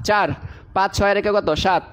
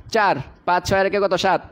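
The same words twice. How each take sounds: The two takes are said the same way.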